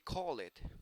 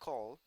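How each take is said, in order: First: The ending adds an extra id syllable. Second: The ending is a plain d sound. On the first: The speaker calls it wrong. "you don't say call it, okay? That is incorrect" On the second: The speaker calls it right. "you pronounce call"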